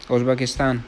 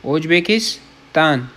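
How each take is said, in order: First: Said in the usual way. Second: ازبکستان drawn out syllable by syllable; slow careful demo of ازبکستان; slow model word. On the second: Shown as a demonstration. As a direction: say ازبکستان very slowly for learners to copy. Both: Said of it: "ازبکستان، repeated as a demo".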